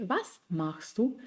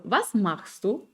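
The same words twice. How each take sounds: First: Softer, slow, Was stressed with a rise. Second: Slow, Was stressed, rising at the end. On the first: Teacher repeating the question, softer, stress on Was. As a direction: hit Was, then let du climb. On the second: Teacher showing sentence stress on the W-word, slow. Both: Shown as a demonstration. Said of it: "Die Satzbetonung ist immer auf das W-Wort".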